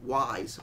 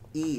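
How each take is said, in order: First: The name begins like the letter Y. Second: The name sounds like the word ees. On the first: "Why is it not Y's?" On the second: "Why is it pronounced E's?"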